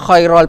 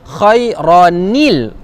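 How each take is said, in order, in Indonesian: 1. Bunyi n dihilangkan dan berakhir -al. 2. Vokal -il yang ditambahkan menghubungkan kedua kata. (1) "khairal pun salah" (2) "jadi kita baca khairanil"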